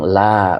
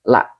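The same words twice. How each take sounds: First: The vowel is drawn out long. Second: The vowel is kept short. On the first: The speaker calls it wrong. "Bukan panjang la, bukan" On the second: The speaker calls it right. "La-nya tidak panjang ya"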